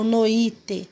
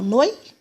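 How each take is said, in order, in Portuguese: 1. As duas primeiras vogais são separadas. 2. As duas primeiras vogais se juntam e formam um som só. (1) "Eu não falo noite" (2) "eu falo noite. O O e o I bem juntinho"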